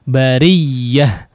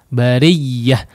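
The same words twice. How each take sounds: No difference in how they are said.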